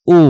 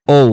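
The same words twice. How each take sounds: First: Said in the usual way. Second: "ও" as a diphthong, o into u; corrected letter O. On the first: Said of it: "এটাকে বলতাম আমরা ও". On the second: Shown as a demonstration. Teacher correcting the old habit, "ও" gliding towards u. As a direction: round off "ও" into oh-oo. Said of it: "but এটা হবে ও".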